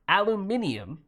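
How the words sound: It has five syllables, ending in 'nium'. "which is how you spell and pronounce that word in British English"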